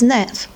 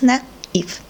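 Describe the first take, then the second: First: The word is said as one syllable. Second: The word is said as two syllables. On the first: The word is written without the accent. "If we don't have this accent, we have to pronounce this word as nef" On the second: The word is written with the accent. "this accent shows us that you have to separate two syllables"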